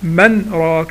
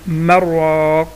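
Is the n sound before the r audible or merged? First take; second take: audible; merged. First: A clear n sound comes before the r. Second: The n sound merges fully into the r. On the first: The speaker calls it wrong. "انا ما قلتش انا من راك" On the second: The speaker calls it right. "لا مراك"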